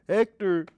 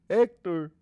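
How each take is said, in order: The two takes are said the same way.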